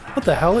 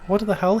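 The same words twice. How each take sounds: First: It is said in a normal speaking voice. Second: It is said in a robotic text-to-speech voice. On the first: "do a normal voice now" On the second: "talking like this"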